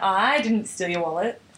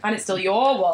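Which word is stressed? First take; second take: I; your. First: The stress falls on the word I. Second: The stress falls on the word your. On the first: Someone else stole it. "Someone else did" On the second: I stole someone else's wallet. "implies someone else's"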